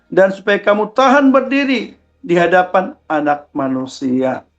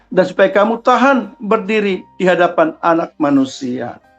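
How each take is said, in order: Both takes have the same delivery.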